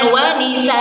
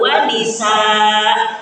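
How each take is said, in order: First: The final vowel of nisaa is cut short. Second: The final vowel of nisaa is held long. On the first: The speaker calls it wrong. "Jangan wa nisa" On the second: The speaker calls it right.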